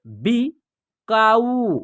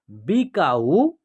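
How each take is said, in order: First: बिकाऊ very drawn out, syllables apart; slow syllable by syllable. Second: Said in the usual way. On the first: Shown as a demonstration. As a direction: read बिकाऊ slowly in parts. (बिकाऊ धीरे-धीरे टुकड़ों में) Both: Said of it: "या आप direct भी पढ़ सकते हैं".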